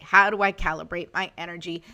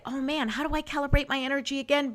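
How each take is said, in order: First: Said in the usual way. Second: Quick, higher-pitched puzzled self-talk; mock fretting. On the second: Host voices a forgetful guide user, mock fretting. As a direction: play someone who has forgotten, lightly hammed-up.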